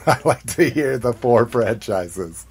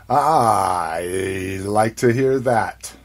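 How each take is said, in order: First: Said in the usual way. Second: Slow, drawn-out. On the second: Shown as a demonstration.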